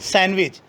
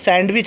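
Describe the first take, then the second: First: The d sound is silent. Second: The d sound is clearly pronounced. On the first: The speaker calls it right. "डी यहाँ पर silent होगा" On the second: The speaker calls it wrong. "कभी भी सैंडविच नहीं होता"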